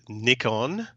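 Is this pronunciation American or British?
British. It is said with a British pronunciation. The speaker calls it right. "For the American viewers, it's called Nikon"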